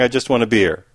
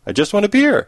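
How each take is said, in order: First: Said in the usual way. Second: High-pitched, insistent dog's plea; mock-desperate plea. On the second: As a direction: beg for it, pitch jumping up. Dog repeats plea more urgently.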